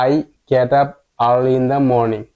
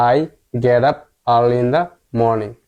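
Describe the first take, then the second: First: Very slow, word by word; slow model reading. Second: Very slow, each word apart; slow model reading again. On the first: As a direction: read it slowly for learners. (ধীরে ধীরে পড়া) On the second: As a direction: repeat slowly for learners. (ধীরে ধীরে আবার পড়া) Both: Shown as a demonstration. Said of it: "পুরো লাইনটি আমরা পড়ি".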